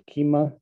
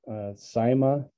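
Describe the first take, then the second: First: The word begins with a K sound. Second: The word begins with an S sound. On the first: This is the Greek pronunciation. "in Greek, apparently you pronounce it kima" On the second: This is the commonly heard pronunciation. "I often hear this pronounced saima"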